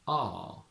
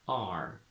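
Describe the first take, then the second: First: Said in a British accent, R silent. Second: Said in an American accent, R pronounced. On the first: "From American to British" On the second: "From American to British"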